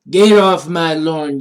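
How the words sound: It is said in an old man's voice.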